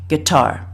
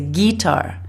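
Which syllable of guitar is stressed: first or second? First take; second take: second; first. First: The stress is on the second syllable. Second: The stress is on the first syllable. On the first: The speaker calls it right. "you should be stressing the second syllable" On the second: The speaker calls it wrong. "They put more stress on the first syllable"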